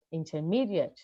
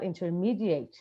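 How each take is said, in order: First: Intermediate ending in a schwa, -diət; correct native form. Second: Intermediate ending in full -ate; mock student intermediate with every vowel full; imitating the student. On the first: Shown as a demonstration. Teacher modeling the native intermediate ending in schwa. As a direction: intermediate with reduced final vowel. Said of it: "And intermediate". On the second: Teacher imitating a student's intermediate with full final vowel. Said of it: "not intermediate".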